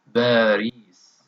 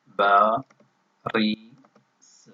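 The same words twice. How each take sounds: First: Said in the usual way. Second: Very slow Paris, paused between ba and ri; Paris slowly syllable by syllable. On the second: Shown as a demonstration. Teacher showing the repeated letter in Paris, slowly syllable by syllable. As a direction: stretch and split Paris so ri stands alone. Word broken up to isolate ري.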